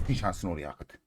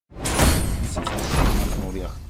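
First: Said in the usual way. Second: "Bütün şansını oraya akıt" whispered, very slow. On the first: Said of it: "repeat whispered". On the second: Shown as a demonstration. Streamer willing luck onto the roll, slow whisper. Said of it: "repeated as whisper".

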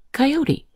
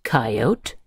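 First: "coyote" with the final e sounded as ee; three-syllable "coyote". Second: "coyote" with a silent final e; two-syllable "coyote". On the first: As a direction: say "coyote" as ky-OH-tee. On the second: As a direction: say "coyote" as KY-oat. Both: Shown as a demonstration. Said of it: "Coyote can be pronounced".

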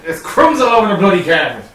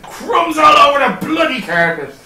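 First: Put-on Irish accent. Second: Imitating a friend. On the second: Quoting a friend's catchphrase.

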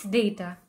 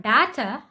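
First: Data as day-ta, softer; data with long A; correct data. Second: Data as dah-ta; mispronounced data; wrong data. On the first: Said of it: "A, not A". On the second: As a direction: say data with a short ah. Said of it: "The pronunciation of the letter A is". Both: Shown as a demonstration.

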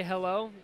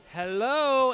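First: Said in the usual way. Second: Louder, higher parrot hello; raised, drawn-out imitated parrot call; parrot getting insistent. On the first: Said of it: "this parrot would always say". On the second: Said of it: "and it'd get more".

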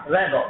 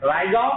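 First: "रैगो" with a flat "rae" vowel; second pronunciation. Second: "राइगो" with a clear "rai" diphthong; first pronunciation. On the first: ("रैगो" उच्चारण, रै के साथ) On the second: ("राइगो" उच्चारण, राइ के साथ) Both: Shown as a demonstration. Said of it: "इसके दो प्रोनाउंसिएशन है".

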